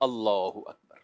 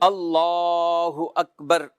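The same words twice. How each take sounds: First: The phrase is said short, not lengthened. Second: The phrase is drawn out and lengthened. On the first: The hands are to be folded. "जहाँ हाथ बाँधने हैं" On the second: The hands are to be released. "तवील कर दी"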